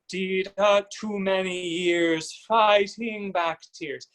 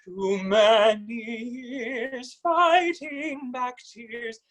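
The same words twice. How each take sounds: First: Slow, lopsided stress on fighting; uneven stress. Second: Slow sung line, higher, with even note lengths; even sung triplets. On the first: Coach demonstrates the uneven triplet to avoid: lopsided stress. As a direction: lean wrongly on the fighting syllable. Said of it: "You're not necessarily putting emphasis". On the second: Coach sings the corrected triplets for the student: even sung triplets. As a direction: sing it with length on the middle note. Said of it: "it's length on the middle note". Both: Shown as a demonstration.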